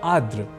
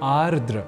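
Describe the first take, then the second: First: The word is said with one r sound dropped. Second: The word is said with both r sounds kept. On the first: The speaker calls it wrong. "हम एक र इस अक्षर को हटा देने का काम उच्चारण और लेखन के समय कर रहे होते हैं" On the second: The speaker calls it right. "शुद्ध रूप है आर्द्र"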